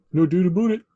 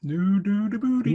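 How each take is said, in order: First: "about" said "aboot", higher; Canadian "aboot", played up; mock Canadian accent. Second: "about" as "aboot", pitched higher; hammed-up Canadian "aboot"; mock Canadian accent. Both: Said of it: "That's what a Canadian says".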